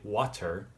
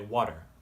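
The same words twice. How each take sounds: First: The middle consonant is a crisp, hard T. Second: The middle consonant is a soft, D-like flap. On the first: The speaker calls it wrong. "We don't really say water" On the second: The speaker calls it right. "we say water. And we sort of make this D R T L kind of sound"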